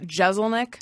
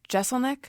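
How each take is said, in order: First: The first syllable has a Z sound, Jez. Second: The first syllable has an S sound, Jess. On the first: The speaker calls it wrong. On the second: The speaker calls it right.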